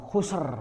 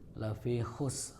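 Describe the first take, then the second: First: The final letter is strongly released with a bounce. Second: The final letter is only lightly touched. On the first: The speaker calls it wrong. "bukan itu karena sin bukan qalqalah" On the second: The speaker calls it right. "dibaca huruf sebelum akhirnya saja sambil sedikit nempel huruf akhir"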